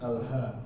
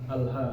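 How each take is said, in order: The two takes are said the same way.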